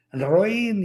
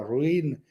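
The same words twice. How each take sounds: First: Higher, drawn-out call; mock child's shout. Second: Imitated echo. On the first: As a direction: play a boy calling into a cave. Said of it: "grita algo". (grito fingido de niño, alargado y agudo) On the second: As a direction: hand the word back like a cave. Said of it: "y el eco". (eco imitado, más flojo)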